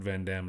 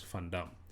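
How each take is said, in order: First: The name is said the American way. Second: The name is said like a Dutch surname. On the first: The speaker calls it wrong. "in the States they call it Van Dam" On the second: The speaker calls it right. "We say Van Damme in South Africa"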